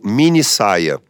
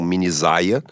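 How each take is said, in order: First: The middle consonant is a voiceless s sound. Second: The middle consonant is a voiced z sound. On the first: The speaker calls it right. "uso de dois S's" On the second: The speaker calls it wrong. "com um S só o som seria de Z, ficaríamos com mini saia"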